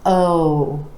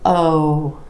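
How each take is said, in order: First: The vowel is long with rounded lips. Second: The same.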